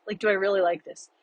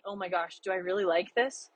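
First: Faster, fuller-voiced repeat of the question; quicker repeat of the doubt. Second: Hushed, doubting question to herself; murmured worry, rising at the end; quiet self-doubt. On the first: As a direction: rush the question out again at normal volume. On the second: Retold or imitated. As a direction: ask it softly, unsure of yourself. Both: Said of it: "it was that bad where I'm like".

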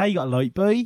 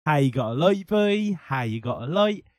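First: Norfolk accent. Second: Put-on old Norfolk postman singing; Norfolk accent. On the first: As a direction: do the old Norfolk farmer. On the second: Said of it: "Yeah, I done it". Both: Shown as a demonstration.

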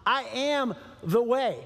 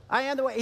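First: Slow, weighty I am the way, am stressed; slow emphatic. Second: Said in the usual way. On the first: Retold or imitated. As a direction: spell it out slowly, leaning on am. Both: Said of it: "he's like".

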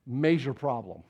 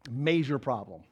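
The two takes are said the same way.

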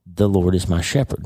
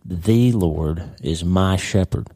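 First: Said in the usual way. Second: Very slow, "The" held long and stressed; deliberate slow reading with "The" singled out. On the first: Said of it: "Now focus on the first word". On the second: Shown as a demonstration. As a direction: slowly spell out each word and lean on "The". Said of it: "he's specifically saying".

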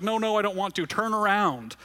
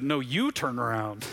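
First: Higher, pleading mock-scared child; boy scared in the flight simulator, high pleading protest; panicked little boy. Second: Slow, steady reassurance; dad calming his scared son, slow and steady. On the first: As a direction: play the frightened kid begging to stop. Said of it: "He's like". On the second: Retold or imitated. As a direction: gently tell him to look back. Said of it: "And his dad said".

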